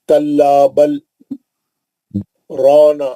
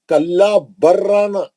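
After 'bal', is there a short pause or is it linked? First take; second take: pause; linked. First: A brief voice break follows 'bal', without taking breath. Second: The 'l' merges into the 'r' with no break. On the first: "कल्ला बल बोल के क्या करें, रुक गए हम" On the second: "अगर हम इसको सकता नहीं रहता तो कैसा पढ़ते थे?"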